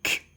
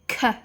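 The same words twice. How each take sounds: First: The k is said alone, with no vowel after. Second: The k is followed by an extra vowel sound. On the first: The speaker calls it right. "instead of saying k" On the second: The speaker calls it wrong. "they may say k"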